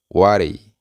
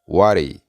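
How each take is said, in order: First: The two words run together as one word. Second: The same.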